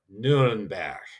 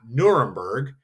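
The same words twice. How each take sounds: First: The name has the German pronunciation. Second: The name has the English pronunciation. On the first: The speaker calls it right. "That would be how you would pronounce Nuremberg in German" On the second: The speaker calls it wrong. "Not Nuremberg"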